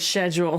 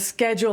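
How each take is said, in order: First: It is said with a British pronunciation. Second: It is said with an American pronunciation. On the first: "different between uh, American and British English" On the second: "different between uh, American and British English"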